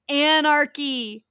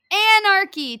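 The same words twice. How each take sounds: First: Drawn-out, slow ominous anarchy; slow dramatic reveal. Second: Anarchy repeated higher and louder; loud emphatic. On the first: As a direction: say anarchy slowly, building suspense. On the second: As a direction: punch anarchy out loud and high. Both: Shown as a demonstration.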